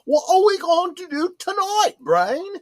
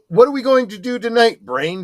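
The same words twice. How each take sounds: First: It is said imitating Pinky's cartoon voice. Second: It is said in the speaker's normal voice.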